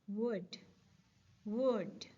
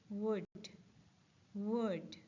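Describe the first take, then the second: No difference in how they are said.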